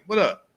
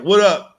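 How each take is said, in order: First: It sounds friendly and accepting. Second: It sounds aggressive and challenging.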